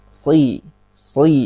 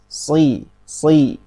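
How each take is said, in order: The two takes are said the same way.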